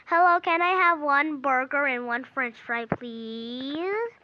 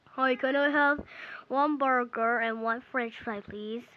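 First: Politely ordering with a long rising please; lightly voiced customer, drawing out "please"; pretend customer. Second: Put-on voice for a man ordering; second customer. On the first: First customer ordering from the burger seller, lightly acted politeness. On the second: New guy ordering a burger from the seller, lightly put-on voice. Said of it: "now he came in".

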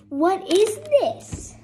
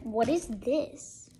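First: High, loud, slow disbelief; incredulous. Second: Said in the usual way. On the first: Real, not acted. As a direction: stretch it out in disbelief. Repeated question, flat then raised.

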